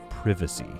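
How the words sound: It is said in a British accent.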